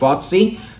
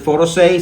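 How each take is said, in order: First: The name is said with two syllables. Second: The name is said with three syllables. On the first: "some people pronounce it Fotsy" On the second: "some people pronounce it Photosay"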